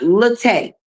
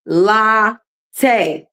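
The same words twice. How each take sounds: First: Latte said luh-TAY, weak schwa first; wrong Latte. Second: Latte said LAH-tay, open ah, falling; Latte: open LAH, then a light tay; correct Latte. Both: Shown as a demonstration. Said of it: "not latte".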